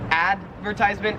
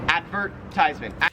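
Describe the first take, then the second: First: The stress is not on the 'vert' syllable. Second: The stress is on the 'vert' syllable. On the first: "in American English, we would say advertisement" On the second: "in Australian English, you say advertisement"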